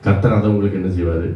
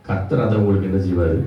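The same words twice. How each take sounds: The two takes are said the same way.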